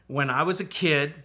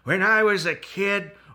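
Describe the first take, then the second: First: It is said in his normal voice. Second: It is said in a put-on grandpa voice.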